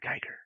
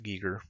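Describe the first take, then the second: First: The name sounds like 'Geiger', with an 'eye' vowel. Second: The name sounds like 'Gee-ger', with an 'ee' vowel. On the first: The speaker calls it wrong. "that's not the way he pronounced his name" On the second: The speaker calls it right. "it is pronounced Giger"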